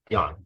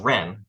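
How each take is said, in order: First: The word begins with a Y sound. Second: The word begins with an R sound. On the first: This is the Cantonese pronunciation. "the Cantonese or, or Guangdonghua uh, pronunciation of this word is Yan" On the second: This is the Mandarin pronunciation. "the standard anglicized Mandarin is Ren"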